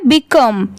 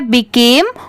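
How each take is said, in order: First: "become" said bi-KUM, short uh; contrasting pronunciation. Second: "became" said bi-KAME, long ay; contrasting pronunciation. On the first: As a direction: model "become" with short uh at the end. ("become" को बिकम बोलना) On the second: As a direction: stretch the ay in "became". ("became" को बिकेम बोलना) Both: Shown as a demonstration. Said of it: "ये है became और ये है become".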